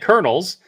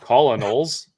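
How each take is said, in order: First: It is not pronounced the way it is spelled. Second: It is pronounced the way it is spelled. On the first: The speaker calls it right. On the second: The speaker calls it wrong.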